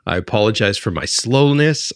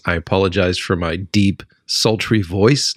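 First: Said in the usual way. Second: Deep sultry voice. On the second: Shown as a demonstration.

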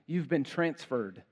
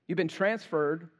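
No difference in how they are said.

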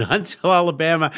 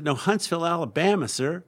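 First: Loud, high, fast disbelieving echo; astonished. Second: Put-on high Southern-accented correction. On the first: Retold or imitated. Caller learning the shop is in Alabama, astonished. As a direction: blurt it back in disbelief. Caller discovers he booked wrong town. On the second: Clerk correcting a confused customer, Southern accent. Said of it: "with a very deep Southern accent".

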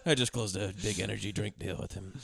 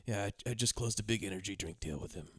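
First: Quiet, laughing sad repeat. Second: Low, soft, dejected delivery; sad. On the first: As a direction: mope through it while laughing. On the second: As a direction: say it like your heart isn't in it. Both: Retold or imitated. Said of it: "He says that very sad".

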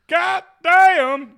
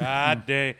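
First: Very high, very loud mock holler; hammed-up yell. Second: Louder, drawn-out disbelief; taken-aback curse. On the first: Host overreacts to the month-long gap, in a high mock holler. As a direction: belt the curse out high, hammed up. Exaggerated repeat of the curse. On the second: Real, not acted. Host reacts to the month-long gap, in loud disbelief. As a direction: curse in loud disbelief, holding back a yell. Reacting to how late they are.

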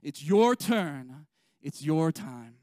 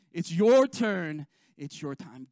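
First: Slow and loud, leaning on "your"; call and response refrain. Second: Peak the refrain, then let it fall; loudest refrain. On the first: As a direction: call it out for the church to repeat. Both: Shown as a demonstration. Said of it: "Say that with me".

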